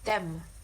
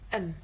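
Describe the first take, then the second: First: The word has its full vowel and initial sound. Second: The word is reduced to a weak schwa sound. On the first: "If you just read the word by itself, you probably say them" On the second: "It's become um. So the word them has the weak form"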